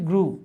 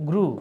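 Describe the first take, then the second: No difference in how they are said.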